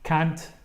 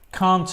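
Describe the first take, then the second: First: It is said with an American accent. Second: It is said with a British accent. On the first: "I can't really do an American accent, but it's more like um" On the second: "in British English"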